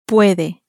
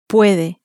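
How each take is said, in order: Both takes have the same delivery.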